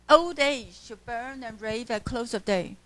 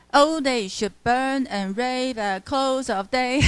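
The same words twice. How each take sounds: First: Said in the usual way. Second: Put-on "old age should burn and rave at close of day" read with da-DUM beats, every stress hammered evenly; stiff mechanical reading. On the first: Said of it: "这一句就很明显". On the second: Shown as a demonstration. Teacher mocking a stiff sing-song reading for students. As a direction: chant it rigidly like a metronome. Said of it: "呆板的念".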